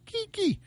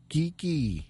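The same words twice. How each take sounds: First: Very high falsetto squeak; squeaky name call. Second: Playful name call. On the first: Host playing with singer [name]'s name, falsetto squeak. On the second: Host playing with singer [name]'s name, playful call. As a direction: say the name higher, falling away. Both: Pretend.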